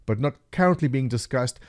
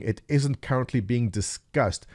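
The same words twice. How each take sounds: First: "currently" pushed hard in "but not currently being discussed"; stress on currently. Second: "isn't" leaned on, the rest of "it isn't currently being discussed" even; stress on isn't. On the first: Vlogger spelling out the dev's hidden meaning, stressing "currently". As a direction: hit "currently" to hint it was discussed before. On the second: Vlogger reading the dev's forum reply, weight on "isn't". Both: Shown as a demonstration.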